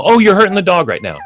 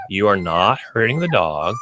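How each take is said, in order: First: Mock-alarmed, high-pitched protest; alarmed objection. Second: Said in the usual way. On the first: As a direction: imitate a fretting onlooker's higher voice. Quoting alarmed objecting dog owners.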